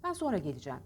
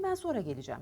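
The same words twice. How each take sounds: First: Sonra with a sounded N; plain sentence with the n kept in sonra; written form. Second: Sonra as "soora", no N; refined spoken form. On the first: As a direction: say sonra as spelt. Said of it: "Bakın daha hoş". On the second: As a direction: drop the n in sonra. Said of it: "Bakın daha hoş, ütülü". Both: Shown as a demonstration.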